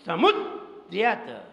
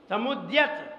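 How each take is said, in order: First: समुद्यत said slowly, leaning hard on द्य; stress on द्य. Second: Said in the usual way. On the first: Shown as a demonstration. Teacher showing where force goes, stressed द्य in समुद्यत. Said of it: "जोर लगाया, ताकत लगा दी". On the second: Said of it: "अब अपन बोलेंगे कैसे?".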